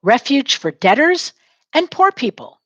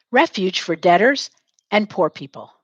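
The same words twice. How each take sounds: First: "Refuge for debtors and poor people" lilting, "poor" pitched very high; a bouncy call for the class to echo; sing-song model line. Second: Said in the usual way. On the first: Shown as a demonstration. Teacher giving a line for students to repeat, sing-song and high. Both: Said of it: "Say it".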